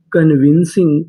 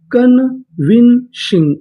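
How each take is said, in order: First: Said in the usual way. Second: Slow syllable by syllable. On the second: Shown as a demonstration. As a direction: stretch convincing out slowly, each syllable held. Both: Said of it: "पूरी meaning".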